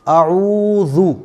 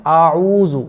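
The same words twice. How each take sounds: First: Tongue forward for the ज़ु of आऊज़ु, slowly; correct tajweed pronunciation. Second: आऊज़ु with a buzzing z, said quickly; common mispronunciation. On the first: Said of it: "आऊज़ु नहीं पढ़ना है". (आऊज़ु में ज़ाल, ज़ुबान आगे, ऊ खींचकर) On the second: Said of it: "आमतौर पर लोग इसको क्या पढ़ते हैं?". (आऊज़ु को 'ज़े' की आवाज़ से, ग़लत) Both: Shown as a demonstration.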